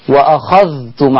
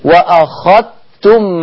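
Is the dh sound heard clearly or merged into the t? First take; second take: clear; merged. First: The dh sound is pronounced clearly before t. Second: The dh sound is merged into the t.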